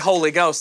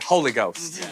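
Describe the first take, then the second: First: It is said in a plain, ordinary way. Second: It is said in an exaggerated preacher style. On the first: This is not how Pentecostals say it. The speaker calls it wrong. "They don't say Holy Ghost" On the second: This is how Pentecostals say it. The speaker calls it right. "they say Holy Ghost"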